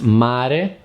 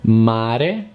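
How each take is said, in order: Both takes have the same delivery.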